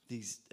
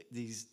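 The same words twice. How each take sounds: The two takes are said the same way.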